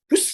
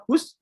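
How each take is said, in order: First: A sharp, angry "Hus" that means it; angry shoo. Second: Said in the usual way. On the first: Shown as a demonstration. Preacher showing a shoo that drives the devil off. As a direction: snap "Hus" so it knows you're angry. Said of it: "berarti dia udah marah dengan saya". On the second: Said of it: "kayaknya biasa aja nadanya".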